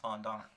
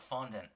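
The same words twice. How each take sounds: First: It is pronounced with a French-style sound. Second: It is pronounced with an English-style sound. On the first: This is the original pronunciation. The speaker calls it right. "it's a French word, and the pronoun- the actual pronunciation is fondant" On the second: This is how other people say it. The speaker calls it wrong. "they call it fondant"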